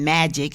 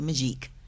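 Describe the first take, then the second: First: It is said like the English word magic. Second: It is said the French way, ending in -eek. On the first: The speaker calls it wrong. "instead of saying magic" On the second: The speaker calls it right. "you say Magique"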